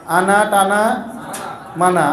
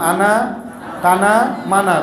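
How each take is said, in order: Both takes have the same delivery.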